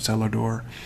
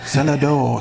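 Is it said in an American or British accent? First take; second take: American; British. First: It is said in the speaker's usual accent. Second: It is said in a British accent.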